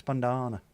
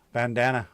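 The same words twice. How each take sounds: First: Said in the usual way. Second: "bandana" with a flat American "a" as in "hand"; American pronunciation. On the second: Shown as a demonstration. Trying out how Americans say it, "bandana" with American short vowels. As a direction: say "bandana" the States way, middle rhyming with "Dan". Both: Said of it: "I'm not from the States".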